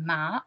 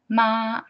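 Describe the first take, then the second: First: The pitch rises from middle to high. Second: The pitch stays level and high. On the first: "That's the rising tone" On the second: "the first tone, ma, ma, the horizontal one"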